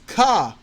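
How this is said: The R at the end is dropped. "They do their best to not say an R"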